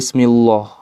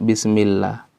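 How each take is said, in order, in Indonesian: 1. Huruf L pada Allah dibaca tebal dan berat. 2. Huruf L pada Allah dibaca tipis dan ringan.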